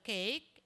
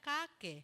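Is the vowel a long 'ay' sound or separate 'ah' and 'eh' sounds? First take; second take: long ay; separate sounds. First: The vowel is said as one long 'ay' sound. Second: The vowel is said as separate 'ah' and 'eh' sounds. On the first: The speaker calls it right. "instead na cake and bake" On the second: The speaker calls it wrong. "Kasi na-generalize niya ato sa ka-e ang tunog nito"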